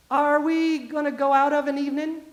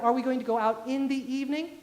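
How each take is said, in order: First: "evening" said as "evenin'"; small-town Southern "evening" without its final g; dropped G. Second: "going" and "evening" with clear -ing; standard full endings. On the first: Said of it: "no G there, of an evening". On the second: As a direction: correct careful version, "evening" ending in ng. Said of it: "Or instead of". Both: Shown as a demonstration.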